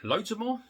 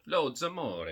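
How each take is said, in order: First: Loads of more rising high in disbelief; puzzled question. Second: Wry repeat. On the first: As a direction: question your own odd phrase, pitch up. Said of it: "I've just grabbed loads of more". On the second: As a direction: accept the odd phrase with a shrug. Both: Real, not acted.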